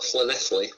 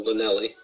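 First: The name is said the way locals prefer. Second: The name is said the way locals dislike.

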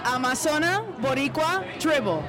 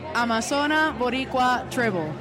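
First: The name is said loudly and with force. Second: The name is said in a casual, plain way.

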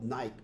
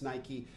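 First: The word is said the way it looks spelled. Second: The word is said with the final vowel sounded. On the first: This is how the spelling suggests it sounds. "I think it's spelled Nike" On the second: This is how others say it should sound. "but they tell me it's Nike"

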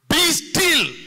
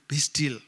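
First: It is said boldly and with courage. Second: It is said timidly and hesitantly.

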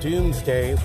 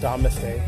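First: The first syllable sounds like 'doom'. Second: The first syllable sounds like 'dome'. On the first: The speaker calls it right. "it's pronounced Doomsday Book" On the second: The speaker calls it wrong. "not Domesday"

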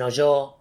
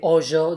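First: The stress is on the second syllable. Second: The stress is on the first syllable. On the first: The speaker calls it wrong. "dicen hoyo" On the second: The speaker calls it right. "en lugar de"

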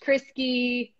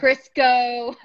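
First: The name ends with a 'kee' sound. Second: The name ends with a 'koh' sound. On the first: "Creasy always gets mispronounced" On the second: "Creasy always gets mispronounced"

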